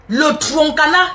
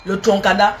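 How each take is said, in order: First: Slow, careful "Le troncana."; names the ingredient "Le troncana" slowly, syllable by syllable; spelling it out. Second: Said in the usual way. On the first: Shown as a demonstration. Teaching viewers the word, slow "Le troncana".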